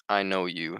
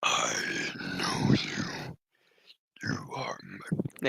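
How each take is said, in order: First: Said in the usual way. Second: Low, slow, rasping whisper; creepy star whisper. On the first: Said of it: "creepy star person is just like". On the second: Acted. Reading the creepy star person's line, raspy low whisper. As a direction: breathe it like an alien thing that knows him. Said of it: "I can't do that voice very much".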